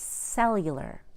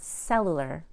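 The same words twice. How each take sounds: First: The 'u' vowel has a 'y' glide before it. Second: The 'u' vowel has no 'y' glide before it. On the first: The speaker calls it right. "we put a Y in the following words" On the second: The speaker calls it wrong. "It's not cellular"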